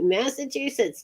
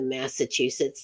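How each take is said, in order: First: Higher, put-on Massachusetts accent. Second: Said in the usual way. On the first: Shown as a demonstration. Host attempting the Northeast, amused Massachusetts accent. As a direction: say "Massachusetts" in a rough New England accent. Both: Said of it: "I'm not real great with the Northeast".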